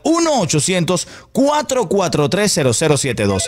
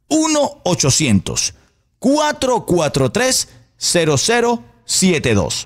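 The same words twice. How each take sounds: First: The number is said at a normal pace. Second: The number is said more slowly.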